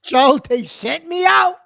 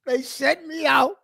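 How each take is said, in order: First: Slow, louder complaint, drawn out; exasperated outburst. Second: Said in the usual way. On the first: Real, not acted. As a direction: moan it to Joe like a martyr. Griping to Joe about errands.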